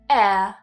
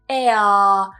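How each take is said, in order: First: The final vowel is a very short schwa. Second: The final vowel is drawn out long. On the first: The speaker calls it right. "The schwa is very short" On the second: The speaker calls it wrong. "make it longer at the end"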